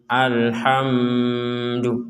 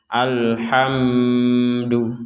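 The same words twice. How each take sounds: The two takes are said the same way.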